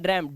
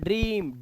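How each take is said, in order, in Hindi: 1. यह स्वर 'cat' में 'a' जैसा सुनाई देता है। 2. यह स्वर 'see' में 'ee' जैसा सुनाई देता है। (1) "अब इसे ड्रैम नहीं पढ़ रहे हैं" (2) "ई की आवाज है"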